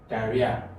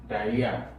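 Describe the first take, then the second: Both takes have the same delivery.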